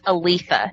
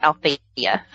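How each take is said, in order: First: The name is said as a-LEE-tha. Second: The name is said as al-THEE-a. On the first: The speaker calls it right. "I think it's Aletha" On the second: The speaker calls it wrong. "not Althea"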